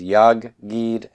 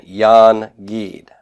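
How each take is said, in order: First: "yag gid" with a doubled g and no n; assimilated nun. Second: "yan gid" with the n clearly sounded; slow "yan gid", the n kept before the g; unassimilated nun. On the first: Teacher showing the nun becoming gimel, doubled g. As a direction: say "yag gid", holding the g across both syllables. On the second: Teacher showing the original Hebrew form, n unassimilated. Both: Shown as a demonstration. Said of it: "causes the noon to assimilate".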